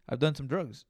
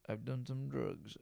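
First: Said in the usual way. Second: Much softer, slower confiding repeat of I've done some drugs; quiet aside. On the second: Shown as a demonstration. Admitting past drug use to his listeners, a hushed sly repeat. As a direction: drop it to a sly murmur. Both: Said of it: "repeats it quieter".

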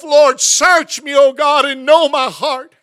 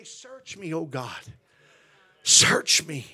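First: Slow, loud cry of search me; loud prayer. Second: Whispered-soft plea of search me; soft prayer. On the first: Retold or imitated. Preacher retelling his own prayer loudly. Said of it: "I've even prayed myself". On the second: Shown as a demonstration. Preacher leading the church in a hushed prayer. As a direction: drop to a hush for the prayer. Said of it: "we always gotta say".

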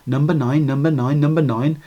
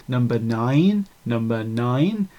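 First: Said in the usual way. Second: Put-on low, slow, drawn-out English accent; English accent, soft and stretched on "nine"; pronounced English accent. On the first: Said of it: "I played it backwards". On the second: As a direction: imitate a very English announcer, stretching NINE upward. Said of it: "a very pronounced English accent says".

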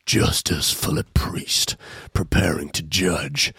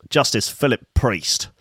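First: Low, slow breathy trailer voice; mock ominous announcer. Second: Said in the usual way. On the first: Shown as a demonstration. Host intoning the judge's name like a trailer, low and slow. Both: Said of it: "repeated name in put-on voice".

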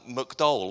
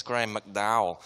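First: McDowell with a short muk sound, said his way; pronounced McDowell. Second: McDowell said mac-DOW-ell like the golf commentators; commentators' McDowell. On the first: Shown as a demonstration. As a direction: say McDowell the way he says it at home. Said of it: "which in my accent is pronounced McDowell". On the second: Retold or imitated. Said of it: "you'll have heard the commentators".

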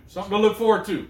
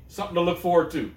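First: Hyped-up. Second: Said in the usual way. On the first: Real, not acted.

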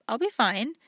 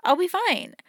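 First: Said in the usual way. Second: Fine said much higher and louder; bright reassurance. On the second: Shown as a demonstration. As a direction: lift it up high to reassure yourself.

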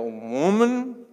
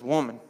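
First: Loud, drawn-out country holler swooping up; stepdad's country voice. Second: Said in the usual way. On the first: Acted. Jesus addressing his mother as a country stepdad, drawn-out holler. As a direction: stretch it out and up, country style. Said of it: "I don't know why I hear that". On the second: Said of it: "Maybe it's a little more depth".

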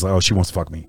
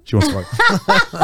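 First: Said in the usual way. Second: High, slow, hammed-up mock of a deluded guy; mocking horny guy. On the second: Shown as a demonstration. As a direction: stretch it out high like a guy sure she wants him. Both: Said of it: "I'm exaggerating".

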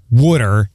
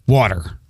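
First: "water" as WOOD-er, Philly style; water said the Philadelphia way, "wooder"; Philly pronunciation. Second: "water" as WAH-ter, standard American; carefully trained, non-Philly "water"; standard pronunciation. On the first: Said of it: "so that I don't say water". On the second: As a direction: say "water" with an open ah. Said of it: "I say water". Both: Shown as a demonstration.

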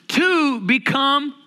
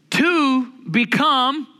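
First: "two" stretched slow, pitched high; slow stress on two. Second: "two" drawn out and rising, slow; slow stress on two. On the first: Preacher repeating the point, stressing "two" slowly. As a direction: hold "two" long before "become". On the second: Preacher stressing "two" to the congregation, slow and drawn out. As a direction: lean hard on "two", then "become". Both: Shown as a demonstration. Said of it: "watch it now".

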